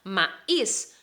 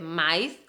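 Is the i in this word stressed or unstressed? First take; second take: stressed; unstressed. First: The i is stressed and sounded apart. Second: The i is weak and blends with the a. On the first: The speaker calls it right. "Maíz es con la I fuerte" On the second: The speaker calls it wrong. "Cuidado que maíz no existe"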